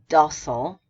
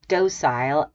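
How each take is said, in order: First: It is said with an American pronunciation. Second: It is said with a British pronunciation. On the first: "in red American" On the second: "the first one is British"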